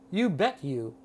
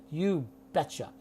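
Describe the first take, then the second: First: The last word is a full, separate 'you'. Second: The last word is reduced and linked as 'cha'. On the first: The speaker calls it wrong. "you can't say you bet you. That does not mean anything" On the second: The speaker calls it right. "if you say you betcha, we will all understand you"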